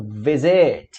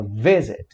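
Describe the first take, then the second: First: "visit" wrongly stressed on the last syllable; tônica na última sílaba. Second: "visit" stressed on the first syllable; tônica na primeira sílaba. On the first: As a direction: say "visit" punching a drawn-out SIT. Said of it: "e não visit". ("visit" com tônica no SIT) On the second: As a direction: say "visit" with the weight on VI. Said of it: "A gente fala". ("visit" com tônica no VI) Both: Shown as a demonstration.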